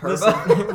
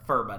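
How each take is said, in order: First: The word begins with a p sound. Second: The word begins with an f sound. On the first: The speaker calls it right. "they audibly said Perba" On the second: The speaker calls it wrong. "not once was it ever referred to as the Furba Dagger"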